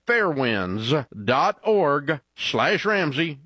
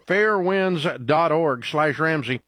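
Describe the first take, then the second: First: Spaced-out web address, slowly; slow, deliberate repeat. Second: Said in the usual way. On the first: Real, not acted. Ad host repeating the website for listeners, slow and deliberate. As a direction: read the address slowly, piece by piece.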